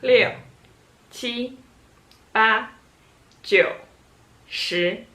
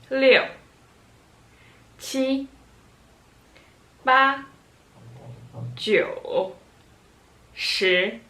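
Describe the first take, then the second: First: The numbers are counted quickly. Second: The numbers are counted slowly.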